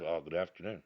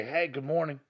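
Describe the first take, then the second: First: Lower, softer and flat-toned; a grudging afternoon greeting; dull good afternoon. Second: Bright, higher and upbeat; sunny greeting with a lift; cheery good morning. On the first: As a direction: mumble it without cheer. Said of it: "instead of". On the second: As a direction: sell a happy hello. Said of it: "it's always better to say". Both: Shown as a demonstration.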